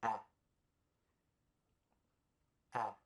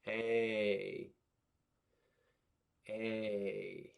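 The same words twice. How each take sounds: First: Short a as in apple. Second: Long A like the letter name. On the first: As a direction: open short ah sound. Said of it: "this is the short sound". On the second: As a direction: say ay as in bake. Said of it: "And this is the long sound". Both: Shown as a demonstration.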